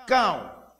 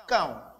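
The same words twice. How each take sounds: First: Cão said out clearly and louder, one sound; teacher modelling Cão as a single sound; demonstrating the word. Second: Said in the usual way. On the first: Shown as a demonstration. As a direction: present the word Cão with emphasis for the class. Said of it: "Ao pronunciar essa palavra". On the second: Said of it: "um só som é produzido".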